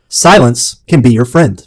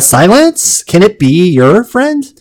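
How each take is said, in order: First: It is said smoothly, slowly and with conviction. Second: It is said hesitantly, as a question.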